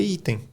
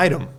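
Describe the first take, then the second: First: "item" read as Portuguese EE-teng. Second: "item" said as English EYE-tum; English pronunciation. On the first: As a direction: say "item" with an i as in see and a nasal ending. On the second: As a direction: open "item" on a long "eye", light second syllable. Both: Shown as a demonstration. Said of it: "é isso que tá em português".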